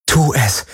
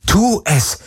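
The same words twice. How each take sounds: First: Raised, tense inner urging; moderately high self-command; inner thought. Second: High, urgent inner cry; desperate self-command; inner scream. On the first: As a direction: urge yourself silently but firmly. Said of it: "dachte sie". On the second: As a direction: urge yourself on, pitched high. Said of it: "schrie alles in ihr". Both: A narrator's reading.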